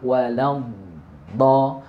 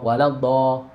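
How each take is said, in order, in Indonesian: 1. Bunyi d ditarik panjang sebelum dilepas. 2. Bunyi d dilepas dengan cepat sekaligus. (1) "Istitolah itu prosesnya agak lama" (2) "nggak langsung"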